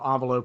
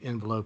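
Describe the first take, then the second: First: The word is said with a French-like opening. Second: The word is said with a plain English opening. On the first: It is the scientific way of saying it. "envelope would be the science base" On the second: It is the everyday colloquial way of saying it. "envelope would be the colloquialism base"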